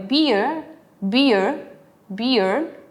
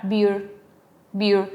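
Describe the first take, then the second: First: "beer" as gliding "bee-uh", rising at the end; British beer, diphthong. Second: "beer" short, one vowel straight into R; American beer, single vowel. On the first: Teacher showing British beer as a diphthong. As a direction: glide through two vowels in "beer". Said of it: "en British ocupan mucho el diptongo". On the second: Teacher showing American beer without the diphthong. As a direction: cut the glide in "beer". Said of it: "lo cambian por una sola vocal". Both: Shown as a demonstration.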